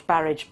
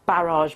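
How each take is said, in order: First: Barrage ending in "-idge"; anglicised ending. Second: Barrage ending in "-ahzh"; French-style ending. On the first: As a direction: say barrage to rhyme with marriage. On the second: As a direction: say barrage to rhyme with collage. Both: Shown as a demonstration. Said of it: "some of them can go either way".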